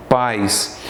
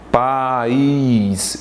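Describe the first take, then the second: First: Pais in a single syllable, A gliding into I; one-syllable diphthong. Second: País stretched very slowly as pa-ÍS; vowels separated. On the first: Teacher repeats the diphthong example, Pais in one syllable. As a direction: say Pais with no break between A and I. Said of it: "Aqui eu tenho um ditongo". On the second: Teacher contrasts hiatus with diphthong, país drawn out in two syllables. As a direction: pull A and I apart in país, stressing the I. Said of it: "há uma separação da letra A da letra I". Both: Shown as a demonstration.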